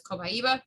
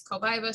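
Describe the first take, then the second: First: "cobaiba" in four syllables, koh-by-EE-buh; alternative pronunciation. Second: "cobaiba" in three syllables, koh-BY-vuh; one pronunciation variant. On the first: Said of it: "some people pronounce it as". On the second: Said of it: "People say it's cobaiba". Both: Shown as a demonstration.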